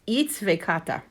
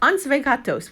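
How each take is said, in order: First: It starts with 'its' and ends in '-ta'. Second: It starts with 'an' and ends in '-tos'. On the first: This is the actual pronunciation. The speaker calls it right. "it's actually pronounced itsvekata" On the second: This is how it was remembered from childhood. The speaker calls it wrong. "I remember it as ansvegatos"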